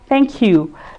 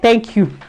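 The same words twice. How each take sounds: First: It is said in a warm, grateful tone. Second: It is said in a flat, indifferent tone. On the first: The speaker truly appreciates the gift. The speaker calls it right. "the man would know you actually appreciate it" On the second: The speaker takes the gift for granted. The speaker calls it wrong. "It's very very wrong"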